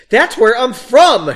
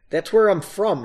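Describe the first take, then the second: First: Loud, high, slow emphatic cry; exclaimed. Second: Said in the usual way. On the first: A narrator's reading. Narrator redoing the line, exaggerated exclamation. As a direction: belt it out, hammed up. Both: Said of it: "she exclaimed".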